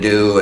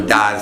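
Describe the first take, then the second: First: The vowel is a full long oo sound. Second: The vowel is reduced to a short uh sound. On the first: The speaker calls it right. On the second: The speaker calls it wrong.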